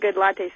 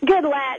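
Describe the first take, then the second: First: The name ends with an extra 'ay' vowel. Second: The name ends on a clipped 'lat' sound. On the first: This is a joking nickname. "we call him Good Latte sometimes" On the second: This is how the name is really said. "is how he goes"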